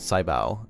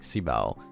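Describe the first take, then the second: First: The first syllable sounds like 'sigh'. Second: The first syllable sounds like 'see'. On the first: The speaker calls it wrong. "like when you say sci-fi" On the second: The speaker calls it right. "I think it's just better like si bao"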